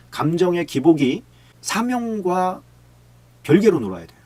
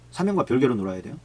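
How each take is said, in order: First: Slowed right down, then punched louder on 별개로; slow emphatic point. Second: Said in the usual way. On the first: Real, not acted. Preacher pressing the point on his congregation, slow then loud. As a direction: lean hard on 별개로 to land the point.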